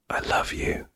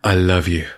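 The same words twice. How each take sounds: First: It is said in a soft whisper. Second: It is said in a normal speaking voice. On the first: The speaker calls it right. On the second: The speaker calls it wrong.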